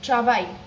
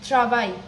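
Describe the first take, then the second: Both takes have the same delivery.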